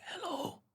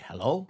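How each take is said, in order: First: Tiny high, soft falsetto hello; mock prim hello. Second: Said in the usual way. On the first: Radio host showing how he didn't answer the phone, mock falsetto. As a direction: sing out a small, very high, soft greeting. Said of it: "I didn't pick up like". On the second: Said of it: "I picked up like".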